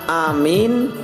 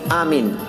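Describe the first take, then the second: First: The first vowel leans toward e and is long. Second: The first vowel and the m are both short. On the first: "dengan imalah dan memanjangkan di antaranya" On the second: "dengan cara memendekkan hamzah dan mim"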